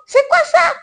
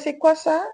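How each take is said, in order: First: The question sounds blunt and dismissive. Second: The question sounds gentle and curious. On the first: The food seems unwelcome. The speaker calls it wrong. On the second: The asker is politely curious about the food. The speaker calls it right. "tu poses gentiment la question"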